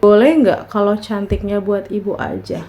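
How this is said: It is said in a creepy, sinister tone.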